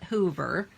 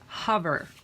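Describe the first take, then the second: First: The vowel is a long oo sound. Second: The vowel is a short uh sound. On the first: The speaker calls it wrong. "It's not hoover" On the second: The speaker calls it right. "It's hover"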